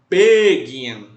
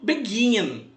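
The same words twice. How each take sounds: First: The stress is on the first syllable. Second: The stress is on the last syllable. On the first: The speaker calls it wrong. "A gente não fala begin" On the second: The speaker calls it right. "O gin é a sílaba tônica"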